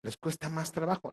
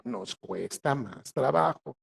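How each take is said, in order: First: Said in the usual way. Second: "nos cuesta más trabajo" dicho muy despacio; lento y recalcado. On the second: Shown as a demonstration. Se incluye, repite muy despacio. (muy lento, palabra por palabra)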